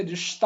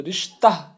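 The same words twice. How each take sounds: First: Said in the usual way. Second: رشتہ with a breathed h on the end, "rishtah"; wrongly sounded h. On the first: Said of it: "ہم لوگ عام طور پہ بولتے ہیں". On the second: Shown as a demonstration. Teacher shows students how we don't say it, رشتہ with an audible final h. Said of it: "یہ نہیں بولتے ہم".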